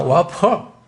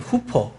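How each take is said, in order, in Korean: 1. 이 단어는 'wa' 소리로 시작해요. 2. 이 단어는 'hoo' 소리로 시작해요.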